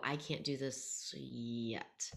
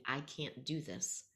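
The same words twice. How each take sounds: First: Slow, with "yet" held out long at the end; stress on yet. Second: Said in the usual way. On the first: Shown as a demonstration. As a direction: hold back, then land a stretched "yet". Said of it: "really stress the word yet". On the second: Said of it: "they're sitting there and they're thinking".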